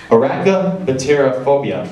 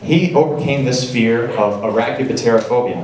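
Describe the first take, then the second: First: Said slower. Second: Said in the usual way. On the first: Shown as a demonstration. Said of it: "I'll say that a little slower for you". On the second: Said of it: "I'll say that a little slower".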